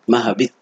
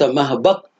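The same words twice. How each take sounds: First: The vowel after b is i: mahbit. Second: The vowel after b is a: mahbat. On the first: It names the place of descending. The speaker calls it right. "على وزن مفعل أو مفعل بكسر العين" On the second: It names the act of descending. The speaker calls it wrong. "ولو قلت مهبط لانقلب مصدرا"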